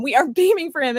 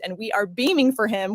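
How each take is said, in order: First: Laughing through the words, higher. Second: Said in the usual way. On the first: Real, not acted. Host overcome by joy, laughing. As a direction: breaks into a real laugh mid-line.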